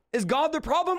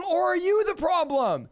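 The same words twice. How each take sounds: First: God the problem, with God stressed and a questioning rise. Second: Turning the blame onto the listener; stress on you. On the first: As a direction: put the weight on God. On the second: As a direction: hit the word you hard. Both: Shown as a demonstration.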